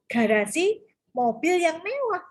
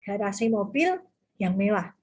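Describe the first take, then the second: First: Slow, with "mobil yang mewah" grouped together and "mewah" stressed; phrasing for the other meaning. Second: Said in the usual way. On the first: Shown as a demonstration. Teacher showing students the car-is-luxurious meaning, slow careful phrasing. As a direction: break after "garasi" and tie "mobil yang mewah" into one slow phrase. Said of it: "Berarti yang mewah adalah mobilnya". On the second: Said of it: "Berarti yang mewah adalah garasinya".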